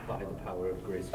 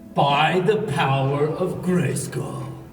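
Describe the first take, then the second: First: It is said plainly, in his normal voice. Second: It is said commandingly, like He-Man.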